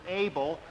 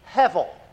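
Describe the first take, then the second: First: The middle consonant is a B sound. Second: The middle consonant is a V sound. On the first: "English is like this, and we pronounce it Abel" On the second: "In Hebrew, it's like this, and the B is pronounced like a V"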